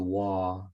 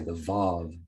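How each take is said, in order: First: The name begins with a W sound. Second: The name begins with a V sound.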